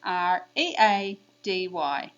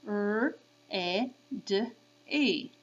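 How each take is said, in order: First: R E A D Y spelled slowly by letter name. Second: R, E, D, E as four separate phonemes; sounded out. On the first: Teacher for kids to repeat, slow letter names. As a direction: chant R E A D Y, E A grouped. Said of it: "I'm gonna say the letter names". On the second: Teacher for kids to repeat, sounded out. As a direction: say R, E, D, E by sound, with gaps. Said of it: "I'll say the sounds". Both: Shown as a demonstration.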